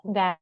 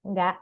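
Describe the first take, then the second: The two takes are said the same way.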